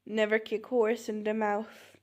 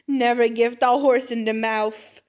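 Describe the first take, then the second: First: Said in the usual way. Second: Much louder, emphatic proclamation; loud, firm declaration; loud correction. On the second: Acted. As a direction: belt out the botched proverb with confidence. Mangled proverb, triumphant correction.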